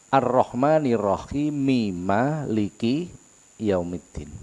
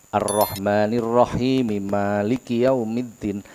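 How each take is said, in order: Both takes have the same delivery.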